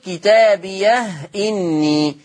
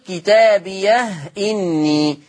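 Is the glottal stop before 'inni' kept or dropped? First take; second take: kept; kept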